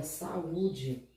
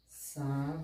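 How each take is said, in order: First: Said in the usual way. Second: Sa-u-de, each syllable said separately; teacher spelling out sa-u-de for the class; syllables split apart. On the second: Shown as a demonstration. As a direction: break saúde into sa, u, de with clear gaps. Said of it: "o A e o U, eles ficaram separados".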